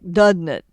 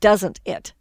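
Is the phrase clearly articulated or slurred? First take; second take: slurred; clearly articulated. First: The words are rushed and slurred together. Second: Each sound is spoken clearly and distinctly. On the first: The speaker calls it wrong. "when we talk too fast, we get sloppy" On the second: The speaker calls it right. "Instead of"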